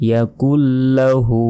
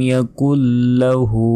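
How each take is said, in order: Both takes have the same delivery.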